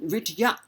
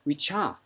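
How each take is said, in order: First: The middle sounds as separate d and y. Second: The middle merges into a palatal ch sound.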